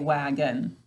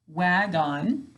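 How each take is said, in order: First: The second syllable has a weak, reduced vowel. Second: The second syllable has a full, clear vowel. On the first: This is the everyday spoken form. "When we're speaking, we say wagon" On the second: This is the careful form used for spelling. "Wagon is how we have to say it to spell it"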